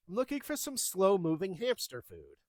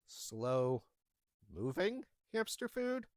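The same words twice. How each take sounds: First: Said in the usual way. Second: Slow, drawn-out disbelieving repeat; incredulous echo. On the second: Retold or imitated. Pet store clerk echoing a baffling request in disbelief. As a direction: repeat it back like you can't believe it.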